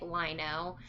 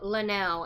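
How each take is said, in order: First: The name begins with the sound 'lie'. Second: The name begins with the sound 'lin'. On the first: The speaker calls it wrong. "I've been saying your name wrong this entire time" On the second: The speaker calls it right. "It's Linnell, right?"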